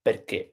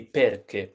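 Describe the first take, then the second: First: "perché" as per-KE, accented ending; stress on last syllable. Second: "perché" as PER-ke, following the regular pattern; long strong PER, weak ke in "perché"; stress on first syllable. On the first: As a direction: shift the weight onto the final ché of "perché". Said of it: "but it becomes perché". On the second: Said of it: "It should be perché". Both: Shown as a demonstration.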